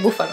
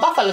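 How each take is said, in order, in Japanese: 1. 最初の音節は 'bu' と発音します。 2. 最初の音節は 'ba' と発音します。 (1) "ブッファローね" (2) "バッファローじゃなくて"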